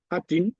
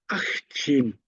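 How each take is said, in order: First: The consonant is said plainly, with no breath before. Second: A breathy h-sound comes before the consonant. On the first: The speaker calls it wrong. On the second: The speaker calls it right.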